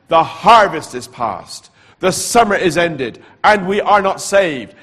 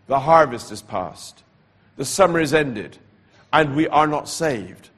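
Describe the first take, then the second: First: Loud, slow, higher proclamation; louder still. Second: The voice returns, a little louder. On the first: Preacher voicing the night voice, loud and slow. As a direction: declare the warning like a booming call. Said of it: "the voice said it louder". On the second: Preacher retelling the night voice, a little louder. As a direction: repeat the warning with more weight. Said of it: "I heard the voice again, louder". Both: Retold or imitated.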